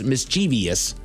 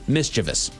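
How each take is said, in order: First: It does not sound like mischief plus -ous. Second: It sounds like mischief plus -ous. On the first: The speaker calls it wrong. "most people incorrectly pronounce this as mischievous" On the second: The speaker calls it right. "this comes from mischief, makes sense that it's actually pronounced mischievous"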